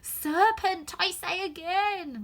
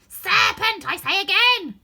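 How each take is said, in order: First: It is said in a subdued tone. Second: It is said loudly, not subdued.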